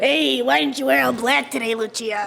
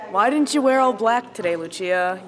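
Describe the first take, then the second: First: It is said in a creepy put-on voice. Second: It is said in a normal voice.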